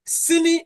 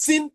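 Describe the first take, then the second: First: "sini" with the final i kept; "sini", higher and ending on the vowel; full two-syllable form. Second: "sin" with the final i dropped; Fanti-style "sin", ending on the n; Fanti pronunciation. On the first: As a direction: say "sini" as si plus ni. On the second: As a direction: say "sin" as one syllable. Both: Shown as a demonstration. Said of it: "is pronounced sin in Fanti".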